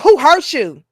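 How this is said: It is said condescendingly and sarcastically. The asker is mocking rather than caring. "In a condescending way, very sarcastic"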